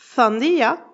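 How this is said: The first consonant is a lisped th sound. "un andalou te dira souvent"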